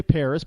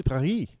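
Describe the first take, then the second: First: Said in the usual way. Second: Paris as "Pah-ree", no s at the end; Paris said the French way, soft r and silent s. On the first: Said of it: "we say Paris". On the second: Shown as a demonstration. Host correcting his audience, French Paris without the s. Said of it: "it's actually Paris".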